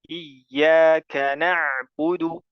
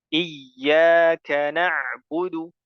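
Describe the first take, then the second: The two takes are said the same way.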